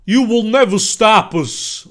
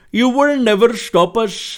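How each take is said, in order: First: Slow, high, loud character voice; acted villain line. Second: Put-on slow, loud, high Indian-accented delivery; Abraham Lincoln, Indian accent. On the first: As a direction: declare it slowly and loudly, in character. Villain's line, before accent is chosen. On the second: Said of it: "Abraham Lincoln with an Indian accent".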